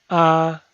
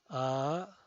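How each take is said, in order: First: The pitch stays high and level. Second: The pitch rises from mid to high. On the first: "El primer tono es alto y sostenido" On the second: "El segundo tono es ascendiente"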